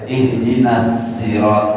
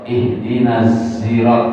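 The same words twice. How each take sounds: First: The word starts with a plain s sound. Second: The word starts with a z sound. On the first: "pakai sin" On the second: "pakai zai"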